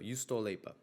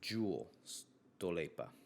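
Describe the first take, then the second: First: The name starts with a Y sound. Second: The name starts with a J sound, like jewel. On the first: The speaker calls it right. "I think I'm saying that right" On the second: The speaker calls it wrong.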